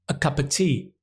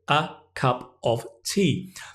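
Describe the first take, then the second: First: The words run together as one sound. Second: Each word is said separately, with small breaks. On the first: "you should learn one sound" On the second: "you have to learn four words"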